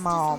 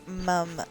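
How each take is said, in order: First: The word is said with the vowel of 'mom'. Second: The word is said with the vowel of 'mum'. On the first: The speaker calls it wrong. "not mom" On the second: The speaker calls it right. "she would say mum"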